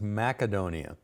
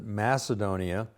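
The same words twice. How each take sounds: First: The c is a hard k sound. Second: The c is a soft s sound. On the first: This is how it is pronounced in Greece. "they pronounce the C's with a hard C, so it's Macedonia" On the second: This is the common everyday pronunciation. "most of us pronounce it Macedonia"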